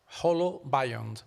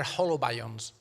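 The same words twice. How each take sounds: First: Holobiont said slowly, syllable by syllable; correcting Holobiont, drawn out; careful correction. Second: Said in the usual way. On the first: Shown as a demonstration. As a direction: spell out Holobiont slowly and clearly.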